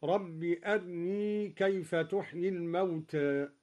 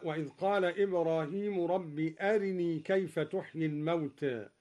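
First: أرني said erni, the raa vowel cut short and light; snatched light raa. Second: Said in the usual way. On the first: Shown as a demonstration. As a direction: clip the kasra of the ر in أرني, thin raa. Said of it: "باختلاس الراء مرققة". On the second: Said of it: "قرأ الدوري باختلاس الراء مرققة".

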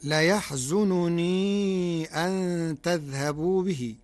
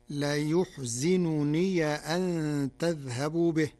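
First: Slow recitation, "ليحزنني" as la-yahzununii; standard reading. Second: Slow recitation, "ليحزنني" as la-yuhzinuniya; Warsh reading. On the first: Sheikh quotes the verse before explaining, slow "ليحزنني" as la-yahzununii. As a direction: recite "ليحزنني" with a after ya, u after zay, long final ii. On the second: Sheikh demonstrates the Warsh form, slow "ليحزنني" as la-yuhzinuniya. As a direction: recite "ليحزنني" with u after ya, i after zay, final ya voweled. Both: Shown as a demonstration. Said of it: "بضم الياء".

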